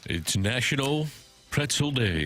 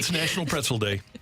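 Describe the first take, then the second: First: It is said in a put-on broadcaster voice. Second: It is said in his normal voice.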